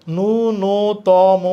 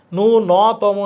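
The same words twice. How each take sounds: First: "ন্যূনতম" very slowly as nu-no-to-mo; correct version. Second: "ন্যূনতম" slowly as nu-naw-to-mo; wrong open vowel. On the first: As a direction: stretch every syllable of "ন্যূনতম", no on O. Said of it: "এটা ঠিক আছে". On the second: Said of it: "এটা হচ্ছে না". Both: Shown as a demonstration.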